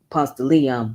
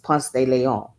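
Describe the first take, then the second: First: The name is said the local way. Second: The name is said the original way. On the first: This is how people here say it. "We say" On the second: This is how it is really pronounced. "it's actually pronounced as"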